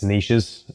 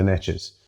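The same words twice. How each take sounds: First: The word is said with a British pronunciation. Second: The word is said with an American pronunciation. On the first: "It's niches, Americans" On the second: "I'm going to pronounce it in an American way because it sounds better"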